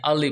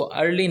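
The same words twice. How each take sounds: First: अर्ली said "a-lee" with no r sound; अर्ली with the r dropped, the taught way; correct pronunciation. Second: अर्ली said with a clear r, "ur-lee"; अर्ली with the r sounded, the way not to say it; wrong pronunciation. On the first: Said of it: "इसको अर्ली नहीं पढ़ते, बल्कि". (अर्ली बिना र के, "अली" जैसा) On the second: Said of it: "बल्कि अल-, अर्ली पढ़ते हैं". (अर्ली को र के साथ, गलत उच्चारण) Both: Shown as a demonstration.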